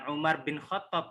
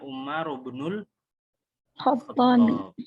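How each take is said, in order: First: The middle word is said as a short bin. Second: The middle word is linked on as ibnul. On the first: The speaker calls it wrong. "Kalau dibaca bukan Umar bin Khattab, bukan" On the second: The speaker calls it right. "Bacanya Umar ibnul Khattab"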